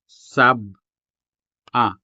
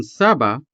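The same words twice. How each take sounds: First: Sab, a clear break, then a; pause between syllables. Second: Said in the usual way. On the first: Shown as a demonstration. Teacher demonstrating the glottal break, Sab-a with a pause. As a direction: split Sab-a with a sharp stop between sab and a. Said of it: "notice the sudden pause between the syllables". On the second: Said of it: "would translate the Hiligaynon sab-a into Tagalog".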